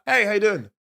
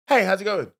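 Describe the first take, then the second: First: Higher, over-keen flirty greeting; creepy winking come-on. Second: Toned-down winking hello; dialled-down flirty greeting. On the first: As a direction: greet them with a suggestive wink. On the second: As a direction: greet casually with a restrained wink. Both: Shown as a demonstration. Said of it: "let me dial it down".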